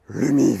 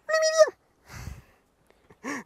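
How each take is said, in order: First: It is said in a deeper voice. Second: It is said in a small high voice.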